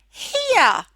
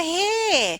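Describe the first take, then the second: First: An extra 'uh' vowel follows the ear sound. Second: No extra vowel follows the ear sound. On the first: The speaker calls it wrong. "you add the schwa" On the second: The speaker calls it right. "without using the silly schwa sound"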